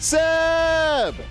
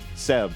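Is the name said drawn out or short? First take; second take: drawn out; short. First: The name is drawn out like an exclamation. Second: The name is said short and plain. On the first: The speaker calls it right. "it's Seb" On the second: The speaker calls it wrong. "it's also not just Seb"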